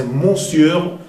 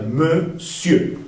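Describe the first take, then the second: First: "monsieur" said as spelt, with nasal "mon"; regularized "monsieur", first syllable like "mon". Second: "monsieur" as meu-sieu, silent R; "monsieur" without nasal N or final R; irregular French pronunciation. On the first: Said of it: "Debería pronunciarse". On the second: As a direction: say "monsieur" slowly as two syllables, meu-sieu. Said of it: "es una excepción y se pronuncia". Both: Shown as a demonstration.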